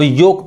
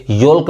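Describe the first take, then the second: First: "योक" with no L sound; silent L. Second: "योल्क" with the L sounded; wrong pronunciation. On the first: Teacher modelling for learners, "योक" with silent L. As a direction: say "योक", O straight into K. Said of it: "इसको अब योक पढ़ेंगे". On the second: Teacher showing what to avoid, "योल्क" with sounded L. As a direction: say "योल्क", pronouncing L before K. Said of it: "योल्क नहीं पढ़ेंगे". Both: Shown as a demonstration.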